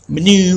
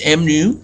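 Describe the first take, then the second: First: The letter and word blend into one word. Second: The letter and word are said apart. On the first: The speaker calls it wrong. "not menu" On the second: The speaker calls it right. "it's m new"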